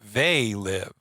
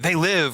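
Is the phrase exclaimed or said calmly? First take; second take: calmly; exclaimed. First: It is said calmly, without exclaiming. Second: It is exclaimed loudly, like a shout. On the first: They are the ones living, while we are not. The speaker calls it right. "It's just like they live" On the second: Creatures are alive and menacing. The speaker calls it wrong. "we're saying it wrong"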